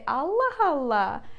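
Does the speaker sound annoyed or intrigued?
intrigued. It is said in an intrigued, curious tone. The speaker reacts to juicy or tricky news. "we use it with the different intonation and with the different occasion"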